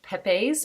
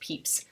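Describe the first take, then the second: First: The name is said as its spelling suggests. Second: The name is said in its accepted way. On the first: The speaker calls it wrong. "looks like it would be pronounced like Pepe's" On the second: The speaker calls it right. "it is actually pronounced Pepys"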